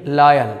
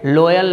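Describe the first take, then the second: First: लॉयल said "LAA-yal" with open vowel; firm model "laayal" for लॉयल; corrected pronunciation. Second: लॉयल with a round O, "LO-yal"; wrong pronunciation. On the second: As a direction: mistaken O reading of लॉयल. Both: Shown as a demonstration. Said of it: "लॉयल नहीं".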